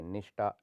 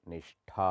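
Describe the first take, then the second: First: निष्ठा said as nishta; no puff on the last syllable of निष्ठा; unaspirated t. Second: निष्ठा ending in breathy thaa; aspirated th. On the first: Teacher shows the error, निष्ठा with टा. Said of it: "निष्ठा होता है". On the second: Teacher corrects it, निष्ठा with breathy ठा. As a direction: puff air on the ठा of निष्ठा. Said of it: "होता है". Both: Shown as a demonstration.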